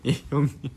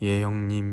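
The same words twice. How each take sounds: First: It is said forcefully with strong emphasis. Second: It is said softly without strong emphasis. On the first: "그냥 조폭 같다고요" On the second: "악센트를 다 빼야 될 것 같다고요"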